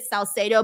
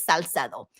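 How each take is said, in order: First: "Salcedo" said the English way, sal-SAY-doh with an English S and long A; "Salcedo" anglicized, sal-SAY-doh, stress on SAY; "Salcedo" with English vowels, sal-SAY-doh; English pronunciation. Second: "Salcedo" said the Spanish way, sal-SEH-doh with pure short vowels; "Salcedo" in Spanish, crisp S and open E in SEH; Spanish pronunciation. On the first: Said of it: "That's, like, the English pronunciation of it". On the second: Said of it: "if you wanna say it in Spanish". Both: Shown as a demonstration.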